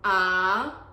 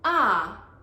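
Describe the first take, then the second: First: The pitch dips low and comes back up. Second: The pitch falls sharply from high to low. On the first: "third tone ah" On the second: "fourth tone ah"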